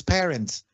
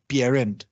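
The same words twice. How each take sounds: First: PARENTS as 'peh-rents'; English-style PARENTS; English pronunciation. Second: PARENT as 'pyeh-rent'; Creole palatalization. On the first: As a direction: say PARENTS with plain 'p', no glide. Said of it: "En lugar de papá". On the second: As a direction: say PARENT with 'py' onset. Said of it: "vamos a decir". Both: Shown as a demonstration.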